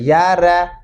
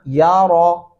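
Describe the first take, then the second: First: The r sound is thin and light. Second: The r sound is heavy and full. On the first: The speaker calls it wrong. "ऐसे नहीं पढ़ना" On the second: The speaker calls it right. "रा को मोटा पुर करके पढ़ना है"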